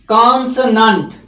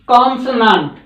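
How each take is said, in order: No difference in how they are said.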